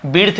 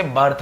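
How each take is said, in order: First: "बिर्थ" with "ih" as the vowel; short I misreading. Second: "बर्थ" with "uh" after the b; correct "uh" vowel. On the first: Teacher denying this reading of birth, "बिर्थ" with "ih". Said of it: "बिर्थ भी नहीं बोल रहे". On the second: Teacher giving the correct reading, "बर्थ" with "uh". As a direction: say birth as "बर्थ", burth. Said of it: "हम इसे बर्थ बोल रहे हैं". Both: Shown as a demonstration.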